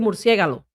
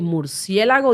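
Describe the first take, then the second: First: The word ends with the syllables ga-lo. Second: The word ends with the syllables la-go. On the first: The speaker calls it wrong. "dice murciégalo" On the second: The speaker calls it right. "en vez de decir murciélago"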